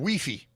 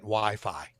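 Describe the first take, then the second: First: Wi-Fi is pronounced in an unusual, nonstandard way. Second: Wi-Fi is pronounced in the usual, standard way. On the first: The speaker calls it wrong. "He intentionally mispronounces words" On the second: The speaker calls it right. "I meant Wi-Fi"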